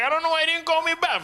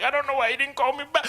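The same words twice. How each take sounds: First: Mock girl's whine, very high; high, fast put-on girl voice. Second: Mock French girl whine; higher, fast put-on girl voice. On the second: Comic retelling the movie's French girl, mock whine.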